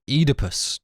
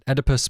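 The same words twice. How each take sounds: First: The name is said the British way. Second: The name is said the American way.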